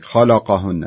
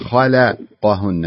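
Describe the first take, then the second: First: The L sound is thick and heavy. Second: The L sound is thin and light. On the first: The speaker calls it wrong. "اللام كأنها فخمت شوي" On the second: The speaker calls it right. "لا خليها"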